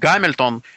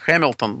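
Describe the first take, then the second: First: The name begins with a hard G sound. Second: The name begins with a breathy H sound. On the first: This is the customary Russian form. "принято говорить «Гамильтон»" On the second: This is closer to the English original. "правильно произносить «Хэмилтон»"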